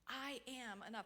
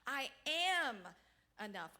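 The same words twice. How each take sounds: First: The stress is on "I". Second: The stress is on "am".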